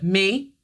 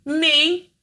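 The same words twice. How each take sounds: First: Put-on little girl voice. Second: Put-on high, small child's answer; a little girl's eager reply. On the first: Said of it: "In that little tiny little girl voice". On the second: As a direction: answer like a tiny girl. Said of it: "My dad always said to me".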